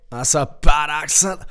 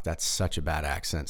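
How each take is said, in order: First: Loud, higher mock-Scottish cry; Scottish accent. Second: Said in the usual way. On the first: Mocking his own bad accent in shouted Scottish. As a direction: shout it like a stock Scot. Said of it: "This is just your generic Scot".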